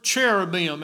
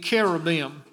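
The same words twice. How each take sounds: First: The word begins with a 'ch' sound. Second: The word begins with a 'k' sound. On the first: "as we pronounce it in English" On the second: "coming from the Greek, it would be cherubim"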